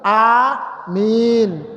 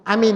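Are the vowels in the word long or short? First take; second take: long; short. First: Both vowels are drawn out long. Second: Both vowels are said short. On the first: It asks that the prayer be granted. The speaker calls it right. "Yang benar, amin. A-nya panjang, min-nya panjang" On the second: It means safe. The speaker calls it wrong. "jangan amin. Amin, itu aman artinya"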